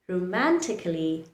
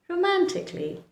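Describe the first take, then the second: First: An extra vowel is sounded before the final ly. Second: The k sound goes straight into ly. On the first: The speaker calls it wrong. "Romantically is the incorrect pronunciation" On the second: The speaker calls it right. "The correct pronunciation is romantically"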